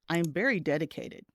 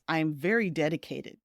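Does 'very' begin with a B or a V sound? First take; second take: B; V. First: 'Very' begins with a B-like sound. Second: 'Very' begins with a clear V sound. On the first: It sounds like a different word. The speaker calls it wrong. "but instead it sounds like" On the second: The speaker is very committed. The speaker calls it right. "you might mean to say"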